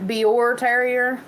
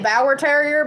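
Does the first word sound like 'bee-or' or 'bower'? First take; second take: bee-or; bower. First: The first word sounds like 'bee-or'. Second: The first word rhymes with 'power'. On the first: The speaker calls it right. "but it's Bior Terrier or something like that" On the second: The speaker calls it wrong. "I say Bower Terrier because I'm redneck"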